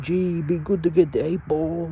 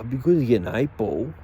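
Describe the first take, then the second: First: It is said in an imitated Māori accent. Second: It is said in the speaker's plain accent.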